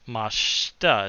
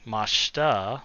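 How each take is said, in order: First: The vowel after sh is dropped. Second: The same.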